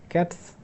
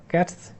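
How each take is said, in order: No difference in how they are said.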